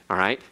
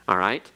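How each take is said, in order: No difference in how they are said.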